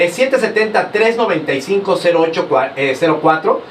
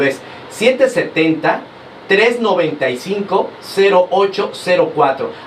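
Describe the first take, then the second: First: The number is read at a quick pace. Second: The number is read at a slower pace. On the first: "por si lo dije muy rápido" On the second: "Se los voy a repetir más lento"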